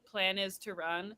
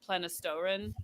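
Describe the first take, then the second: First: It is said as four separate words. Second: It is run together as one word. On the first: "there was one that was" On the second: "for months I was calling them"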